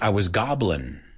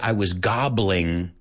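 First: The final g sound is dropped. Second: The final g sound is clearly pronounced. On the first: The speaker calls it right. "Nosotros no pronunciamos la G" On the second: The speaker calls it wrong. "We don't say"

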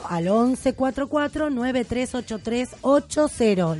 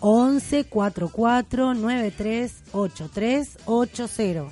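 First: The number is said at normal, quicker speed. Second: The number is said more slowly.

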